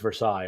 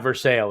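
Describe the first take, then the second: First: It is pronounced the original French way. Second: It is pronounced the local Kentucky way. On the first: This is how the French place name is said. The speaker calls it right. "it's Versailles. I'm sorry, Kentucky" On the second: This is how the Kentucky town name is said. The speaker calls it wrong. "it's not Versailles"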